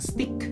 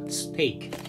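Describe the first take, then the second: First: The vowel sounds like short 'i' in sit. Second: The vowel sounds like 'ay' in day. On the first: The speaker calls it wrong. "bukan stick ya" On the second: The speaker calls it right. "dengan bacaan yang benar, yaitu steak"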